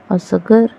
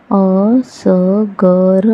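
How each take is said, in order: First: Said in the usual way. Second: असगर split into slow syllables अ-स-ग-र; spelled out slowly. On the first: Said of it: "whole word after sounding out". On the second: Shown as a demonstration. Teacher sounding out असगर slowly for children. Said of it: "syllable-by-syllable then whole".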